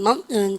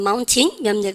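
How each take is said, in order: First: It is said with an American accent. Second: It is said with a British accent. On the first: "미국 애들은 mountain" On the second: "영국 애들은 mountain"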